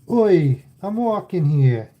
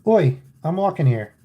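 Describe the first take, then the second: First: It is said in a New York accent. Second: It is said in a plain accent.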